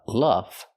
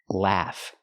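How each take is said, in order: First: The vowel is a short uh, as in cup. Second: The vowel is a short ah, as in cat. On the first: The speaker calls it wrong. "Not the short uh sound like cup and up" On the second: The speaker calls it right.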